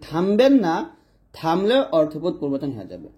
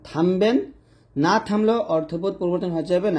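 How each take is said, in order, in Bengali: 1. দ্বিতীয় শব্দের পরে থামা আছে। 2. প্রথম শব্দের পরে থামা আছে। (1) "থামবেন না এরপর কমা দিবেন" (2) "থামবেন এরপর কমা দিবেন"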